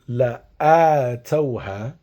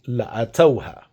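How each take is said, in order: First: The vowel on the hamza is drawn out long. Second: The vowel on the hamza is kept short. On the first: "recite this with an elongation on the hamza" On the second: "without elongating the hamza"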